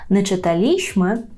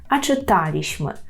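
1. Наголос падає на склад li. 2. Наголос падає на склад ta.

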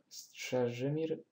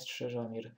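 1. Samogłoska po 'Strzeż' to dźwięk 'y'. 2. Samogłoska po 'Strzeż' to dźwięk 'o'. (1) "Strzeżymir, a nie Strzeżomir" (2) "a nie Strzeżomir"

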